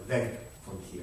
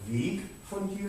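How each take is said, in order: First: Weg is pronounced as the preposition form. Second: Weg is pronounced as the noun form. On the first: Away from here. "or away from here" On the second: The path from here. "the path from here"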